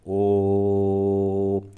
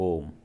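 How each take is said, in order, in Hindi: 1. स्वर को बहुत लंबा खींचा जाता है। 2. स्वर सामान्य लंबाई में बोला जाता है। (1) "अब इसका लंबा उच्चारण करते हैं जैसे ओ, अब इसको खींच रहे हैं" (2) "एक होता है नॉर्मल ओम"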